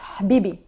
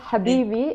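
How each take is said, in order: First: The vowels are reduced and nearly dropped. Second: The vowels are pronounced clearly and fully. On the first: The speaker calls it right. "there's not that many vowels" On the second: The speaker calls it wrong. "it's not Habibi"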